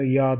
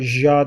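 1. Kelime 'y' sesiyle başlıyor. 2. Kelime 'dj' sesiyle başlıyor. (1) "ya diye okunuyor arkadaşlar" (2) "Bu da ja diye okunmuyor"

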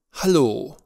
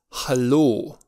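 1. Prima vocală sună ca un 'a' deschis. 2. Prima vocală sună ca un 'a' deschis.

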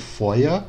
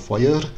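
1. O R final soa como uma vogal A fraca. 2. O R final é vibrado como uma consoante. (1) "seria como se fosse um A mais fraco" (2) "ele sempre vai fazer essa vibração nesse R"

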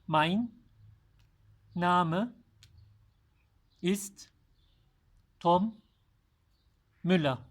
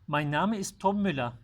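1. Cümle yavaş ve dikkatli söyleniyor. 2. Cümle normal hızda söyleniyor.

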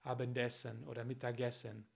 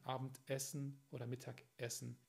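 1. Die Teile gehen ohne Pause vor Vokalen ineinander über. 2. Ein Glottisschlag trennt vor jedem vokalisch beginnenden Teil. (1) "Sie verbinden die Wörter zu viel" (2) "diese Pause zu hören zwischen zwei Vokalen"

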